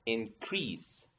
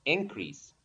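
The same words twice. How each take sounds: First: Soft, low "increase" with stress on "crease"; stress on second syllable. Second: "increase" with stress on "in"; stress on first syllable. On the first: Teacher shows the verb, "increase" stressed on its second syllable. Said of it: "the stress in the second syllable". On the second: Teacher shows the noun, "increase" stressed on its first syllable. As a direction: say "increase" as IN-crease. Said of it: "as a noun". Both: Shown as a demonstration.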